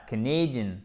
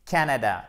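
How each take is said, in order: First: Canadian stressed on the second syllable with an A diphthong. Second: Canada stressed on the first syllable, falling after; front-load Canada on its first syllable. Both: Shown as a demonstration. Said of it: "énorme différence".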